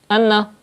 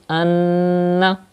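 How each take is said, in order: First: The nasal n sound is cut short. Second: The nasal n sound is held long. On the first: The speaker calls it wrong. "that's not correct, because you are not doing gunna" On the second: The speaker calls it right. "So read anna. Keep the sound into the nose"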